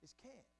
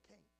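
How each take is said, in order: First: Can't with a clear short a and t; proper can't. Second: Can't with a nasal ain sound; Southern cain't. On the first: Preacher correcting himself, proper can't. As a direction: say can't properly, flat a, crisp t. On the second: Preacher catching his own slip, cain't. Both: Shown as a demonstration. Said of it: "See, I did it again".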